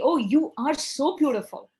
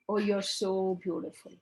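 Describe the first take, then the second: First: It sounds warm and sincere. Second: It sounds flat and insincere.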